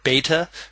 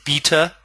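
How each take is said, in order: First: The word is said with an American accent. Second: The word is said without an American accent. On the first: The speaker calls it wrong. "that's my American accent coming through" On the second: The speaker calls it right. "I'm told that I should say beta"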